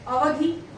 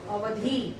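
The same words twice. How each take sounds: First: अवधि with a short, raised last vowel; short final i. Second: अवधि said as अवधी, ending in long ee; long final ee. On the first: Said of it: "छोटी की मात्रा के साथ". (अवधि में छोटी इ की मात्रा) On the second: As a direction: stretch the last vowel of अवधि, letting it fall. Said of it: "बड़ी की मात्रा के साथ". (अवधि को बड़ी ई से, अवधी बोलें) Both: Shown as a demonstration.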